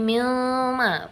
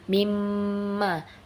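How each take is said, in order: First: The consonant before ma is an l sound. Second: The consonant before ma is an m sound. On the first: The speaker calls it wrong. "Apalagi milma, bukan" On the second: The speaker calls it right. "mimma dileburkan nunnya"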